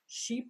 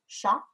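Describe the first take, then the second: First: The vowel is a high 'ee' sound. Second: The vowel is a lower, 'ay'-like sound. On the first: This is the modern pronunciation. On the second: This is how it sounded in Chaucer's time.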